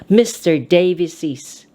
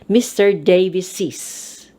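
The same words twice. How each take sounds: Both takes have the same delivery.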